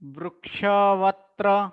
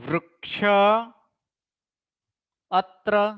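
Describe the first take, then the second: First: A v sound joins the two words. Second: The v sound is dropped between the words. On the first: "જ્યારે લોપ ન કરીએ" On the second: "જ્યારે લોપ થાય ત્યારે"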